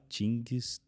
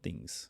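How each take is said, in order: First: The word begins with a plain t sound. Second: The word begins with a soft th sound. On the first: The speaker calls it wrong. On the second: The speaker calls it right.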